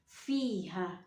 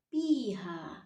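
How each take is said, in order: First: The word begins with an f sound. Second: The word begins with a p sound. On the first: The speaker calls it right. "Kita harus membacanya fa" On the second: The speaker calls it wrong.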